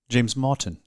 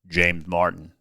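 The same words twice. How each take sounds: First: It is said in a British accent. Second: It is said in an American accent. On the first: "how Britt would say your name" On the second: "how Americans say your name, how I would say your name"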